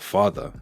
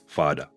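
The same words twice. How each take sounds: First: The final 'er' sound is fully pronounced. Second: The final 'er' sound is dropped. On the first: "instead of" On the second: "you'll hear"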